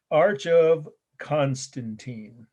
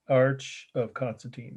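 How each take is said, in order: First: Slow, careful naming. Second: Said in the usual way. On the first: Shown as a demonstration. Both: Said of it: "C O N".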